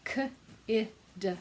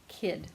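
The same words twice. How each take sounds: First: "K, I, d" as three separate sounds, each with a pause; sounded out letter by letter. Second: Said in the usual way. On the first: Shown as a demonstration. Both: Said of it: "When we blend them together".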